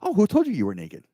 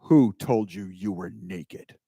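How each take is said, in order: First: It is said in a light, gentle tone. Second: It is said in a stern, threatening tone.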